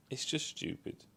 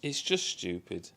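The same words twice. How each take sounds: First: A tired, whispered repeat; whispered aside. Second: Said in the usual way. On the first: Real, not acted. Reviewer whispering his verdict on the dialogue to himself. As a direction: breathe the words with no voice.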